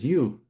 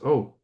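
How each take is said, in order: First: The word sounds like 'you'. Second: The word sounds like 'oh'. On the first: The speaker calls it wrong. "you don't pronounce E A U as you" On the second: The speaker calls it right. "It's O"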